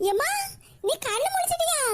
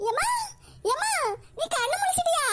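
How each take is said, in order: First: Higher, eager call to the waking mother. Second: Higher, urgent call repeated to the mother; eager call. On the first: Daughter calling her just-woken mother, eager and higher. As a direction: lean in, hopeful and relieved. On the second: Daughter calling again to the waking mother, higher and urgent. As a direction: call her awake, more urgently. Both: Acted.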